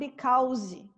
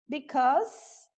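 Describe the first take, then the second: First: The final syllable sounds like the word 'call'. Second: The final syllable does not sound like 'call'. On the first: The speaker calls it wrong. "Tem muita gente que usa esse call" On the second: The speaker calls it right. "because e não because"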